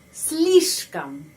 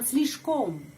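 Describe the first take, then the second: First: The last vowel is reduced to an 'a' sound. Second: The last vowel is pronounced as a full 'o'. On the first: The speaker calls it right. "Karena penekanan pada huruf i" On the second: The speaker calls it wrong. "bukan slishkom"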